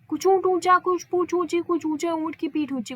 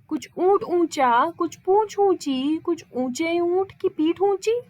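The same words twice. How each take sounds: First: It is said quickly, rushing the words. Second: It is said at a normal, unhurried pace.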